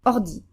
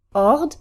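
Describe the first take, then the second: First: "ordi" clipped on the first syllable, landing on i; short unstressed R. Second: "Ord" held as a single stressed syllable. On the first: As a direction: pass lightly over the R in "ordi". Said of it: "first syllable in our new position is shorter". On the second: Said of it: "one where the R is stressed". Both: Shown as a demonstration.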